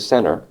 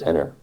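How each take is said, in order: First: The name starts with a blended s-z sound. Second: The name starts with a plain z sound. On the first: This is the older local pronunciation. "It's like an S and a Z combined" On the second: This is the usual modern pronunciation. "what most people say is Zenner"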